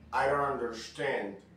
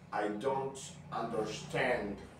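First: It is spoken with an American accent. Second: It is spoken with a British accent. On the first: "este es un canal más bien de inglés americano" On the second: "Lo podemos hacer un poco más británico"

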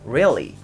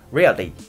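First: The L is held with the tongue pressed up. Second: The L is a quick flap like Japanese r. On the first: The speaker calls it right. "できてるバージョン" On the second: The speaker calls it wrong. "できていないバージョン"

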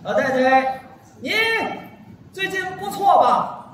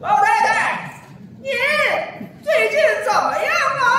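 First: It is said in a normal, louder voice. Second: It is said in a high, shrill eunuch voice.

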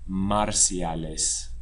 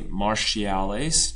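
First: The word is said with a general Spanish pronunciation. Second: The word is said with an English-style pronunciation. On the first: The speaker calls it right. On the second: The speaker calls it wrong.

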